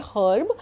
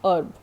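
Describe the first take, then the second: First: The word starts with an audible h sound. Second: The word starts with a vowel, no h. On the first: The speaker calls it wrong. "In common usage you say herb, but it is a wrong pronunciation" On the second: The speaker calls it right. "Its actual pronunciation is herb"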